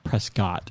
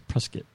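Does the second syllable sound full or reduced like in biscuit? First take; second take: full; reduced. First: The second syllable is said as spelled, unreduced. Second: The second syllable is reduced, rhyming with biscuit. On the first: This is how outsiders say the name. The speaker calls it wrong. "It's not" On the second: This is how locals say the name. The speaker calls it right. "We say Prescott like biscuit"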